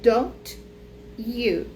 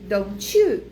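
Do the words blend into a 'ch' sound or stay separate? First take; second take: separate; blended. First: The words are said separately, with a clear t. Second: The t and y merge into a ch sound.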